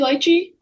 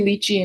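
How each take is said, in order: First: The word has a British pronunciation. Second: The word has an American pronunciation. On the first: "Brits maybe say lychee" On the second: "Americans say lychee"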